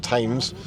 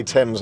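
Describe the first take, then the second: First: Thames said as "Tames", long a; wrong Thames pronunciation. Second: Thames said as "Tems", short e; correct Thames pronunciation. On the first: Showing the AI its mistake, Thames as "Tames". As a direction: rhyme Thames with names, hard T. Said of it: "not Thames". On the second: Teaching the AI to say Thames, as "Tems". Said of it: "I've already been teaching you things like". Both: Shown as a demonstration.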